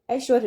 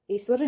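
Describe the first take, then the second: First: ऐश्वर्य with a clear sh; sh before v in ऐश्वर्य; correct pronunciation. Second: ऐश्वर्य with plain s, es-var-ye; wrong pronunciation. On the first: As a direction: say ऐश्वर्य as aish-var-ye. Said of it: "ऐश्वर्य होगा". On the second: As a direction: say ऐश्वर्य as es-swar-ye. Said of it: "ऐश्वर्य नहीं होगा". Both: Shown as a demonstration.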